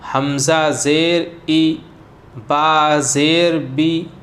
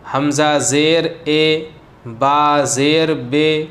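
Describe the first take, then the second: First: The vowel is a long ee sound. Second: The vowel is an ay sound. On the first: The speaker calls it right. "तो ये मारूफ़ हो गया" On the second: The speaker calls it wrong. "तो ये हो गया मजहूल"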